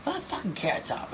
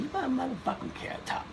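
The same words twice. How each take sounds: First: Higher put-on voice, teasing nickname; mock Chris Rock ribbing him; Chris Rock impression. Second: A much higher, hammed-up comic's voice calling him out; mock Chris Rock, pitch way up, teasing; Chris Rock impression. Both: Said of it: "he said".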